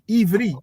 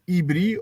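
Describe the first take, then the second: First: The middle consonant is a V sound. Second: The middle consonant is a B sound. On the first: "It's with a V, not with a B" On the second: "they will pronounce the word Ibri or with a B"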